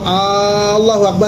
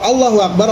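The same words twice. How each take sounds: First: The opening vowel of Allahu is lengthened. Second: The opening vowel of Allahu is short. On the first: It asks whether God is the greatest. The speaker calls it wrong. "jadi bertanya, apakah Allah Maha Besar?" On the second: It states that God is the greatest. The speaker calls it right. "Allah Maha Besar"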